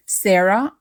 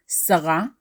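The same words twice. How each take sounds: First: Said in the usual way. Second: Sarah as "sa-RA"; Hebrew pronunciation. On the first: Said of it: "or Sarah in Hebrew". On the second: Shown as a demonstration. Teacher naming Abraham's wife in Hebrew, Sarah as "sa-RA". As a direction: say Sarah the Hebrew way, ending stressed "sa-RA". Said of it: "Sarah in Hebrew".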